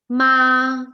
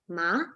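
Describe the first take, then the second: First: The pitch stays high and level. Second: The pitch rises from low to high. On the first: "ma in constant, that is first tone" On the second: "In second tone, which is the rising tone"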